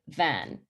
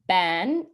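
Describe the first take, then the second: First: The word begins with a v sound. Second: The word begins with a b sound. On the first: This is the adult form. "instead of" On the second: A young child with stopping says it this way. "a child with stopping would say"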